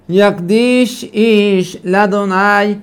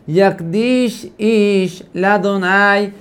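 Both takes have the same delivery.

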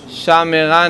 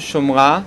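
First: The first vowel is pronounced as a. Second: The first vowel is pronounced as o. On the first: "יש שם גאיה אחרי השין" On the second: "הקמץ הוא קמץ חטוף"

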